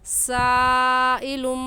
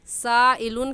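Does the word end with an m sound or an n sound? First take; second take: m sound; n sound. First: The word ends with an m sound. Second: The word ends with an n sound. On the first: The speaker calls it right. "सही क्या है? साइलुम" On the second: The speaker calls it wrong. "साइलुन कहना गलत है"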